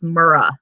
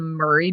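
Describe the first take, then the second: First: The name ends in an 'ah' sound. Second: The name ends in an 'ee' sound. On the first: The speaker calls it right. "no, it's Murrah" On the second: The speaker calls it wrong. "I saw some people on uh on YouTube pronouncing it the Murray building"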